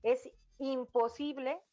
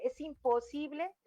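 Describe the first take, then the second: First: Said in the usual way. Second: "imposible" lifted high and leaned on; stress on imposible. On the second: Shown as a demonstration. Mother to parents, insisting: "imposible" stressed high. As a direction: land hard on "imposible". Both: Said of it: "recalco la palabra imposible".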